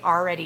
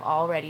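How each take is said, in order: First: It is said with a local Utah pronunciation. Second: It is said with a standard pronunciation. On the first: The speaker calls it wrong. "why do I always say already" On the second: The speaker calls it right. "instead of already"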